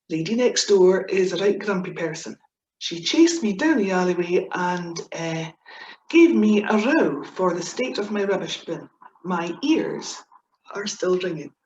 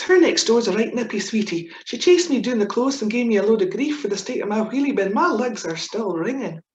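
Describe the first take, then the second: First: Said in the usual way. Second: Broad Scots. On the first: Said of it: "the translation". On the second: Shown as a demonstration. Reading out her broad Scots example sentence. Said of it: "what we do is we always put a little bit into context".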